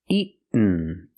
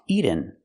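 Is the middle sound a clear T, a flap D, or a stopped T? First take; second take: stopped T; flap D. First: The middle sound is a stopped, unreleased T. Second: The middle sound is a quick flapped D. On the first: The speaker calls it right. "Or I can make a stop T" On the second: The speaker calls it wrong. "not pronounced eaten. We cannot make a fast D here"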